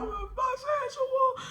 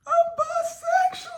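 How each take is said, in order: First: Hint of the yell, drawn out; retold yell. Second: Very high, cracking cry of a confession; yelled confession. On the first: Retelling her blurted confession, high and drawn out. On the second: Retold or imitated. Teen blurting a confession to her mom, high yelled cry. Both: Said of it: "I just yelled out".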